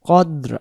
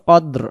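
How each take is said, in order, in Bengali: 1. এটি আরবি তিলাওয়াতের উচ্চারণে বলা হচ্ছে। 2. এটি আরবি তিলাওয়াতের উচ্চারণে বলা হচ্ছে।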